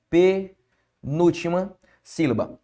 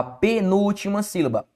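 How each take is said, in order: First: "Penúltima sílaba" slowly, in separated chunks; slow teacher's breakdown of "Penúltima sílaba"; slow, broken up. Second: Said in the usual way. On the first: Shown as a demonstration. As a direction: break it as pe, núltima, sílaba with clear pauses. Teacher repeats term broken into pieces.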